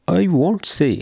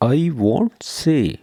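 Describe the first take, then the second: First: Said in the usual way. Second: "I won't say" said very slowly, each word drawn out; slow repeat. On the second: Shown as a demonstration. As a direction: spell it out slowly for learners. (آہستہ آہستہ دہرائیں)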